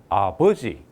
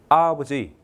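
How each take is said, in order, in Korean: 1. 강세는 두 번째 음절에 있어요. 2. 강세는 첫 번째 음절에 있어요. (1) "두 번째 줬습니다. 강세를" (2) "강세를 앞에 줬습니다"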